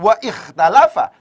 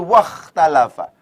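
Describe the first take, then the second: First: The glottal stop before 'ikhtalafa' is pronounced separately. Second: The glottal stop is dropped and the words link. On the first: The speaker calls it wrong. "Jadi bukan" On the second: The speaker calls it right. "tapi wakhtalafa. Hamzahnya di sini tidak dibaca"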